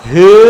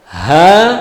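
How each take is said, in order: First: The vowel is an 'e' sound. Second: The vowel is an open 'a' sound. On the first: The speaker calls it wrong. "bacaan yang salah, yang tidak pas" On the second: The speaker calls it right. "Itu ha sesuai dengan makhraj dan sifatnya"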